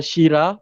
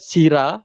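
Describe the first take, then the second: First: It begins with a sh sound, shira. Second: It is said as two syllables, sira. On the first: "bukan Syira" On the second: "Bukan Sira"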